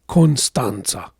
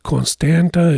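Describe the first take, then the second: First: The second t is sounded like ts. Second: The second t is sounded as plain t. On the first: The speaker calls it right. "the name of the city is Constanța" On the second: The speaker calls it wrong. "It's not Constanta"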